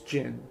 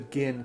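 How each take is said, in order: First: The name begins with a J sound. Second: The name begins with a hard G sound. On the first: The speaker calls it right. "It's Jin" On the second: The speaker calls it wrong. "I cannot go with the Gin pronoun"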